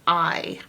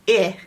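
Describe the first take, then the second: First: It is the long i sound. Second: It is the short i sound. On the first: The speaker calls it wrong. "not its long vowel sound" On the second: The speaker calls it right. "its short vowel sound I"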